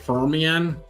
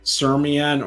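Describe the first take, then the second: First: The name starts with an F sound. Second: The name starts with an S sound. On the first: "either the F or the S has to be silent" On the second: "either the F or the S has to be silent"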